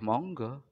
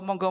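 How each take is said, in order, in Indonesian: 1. Diucapkan dengan nada terpaksa dan pasrah. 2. Diucapkan dengan nada hangat dan mengundang.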